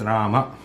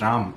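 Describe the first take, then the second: First: The word ends with a short final vowel. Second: The word ends on the consonant m. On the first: This is the Sanskrit form. "But in Sanskritam, that is Rama" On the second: This is the Hindi form. "that still is Ram in, in Hindi"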